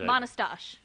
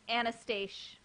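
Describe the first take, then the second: First: The name begins with an M sound. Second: The name begins without an M sound.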